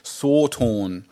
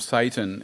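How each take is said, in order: First: The first vowel sounds like 'saw'. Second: The first vowel sounds like 'say'. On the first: This is the original pronunciation. "the pronunciation is Sawtorn" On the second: This is the anglicised pronunciation. "has become Satan in the way we anglicise things"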